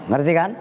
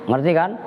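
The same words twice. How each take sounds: Both takes have the same delivery.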